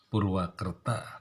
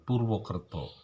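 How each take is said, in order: First: The name's vowels are said as 'a'. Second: The name's vowels are said as 'o'. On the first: This is how people there usually said the name. The speaker calls it right. "orang biasanya akan menyebut Purwakerta" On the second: This is the reading taken from Jogja and Solo Javanese. The speaker calls it wrong. "mestinya dibaca bukan Purwokerto"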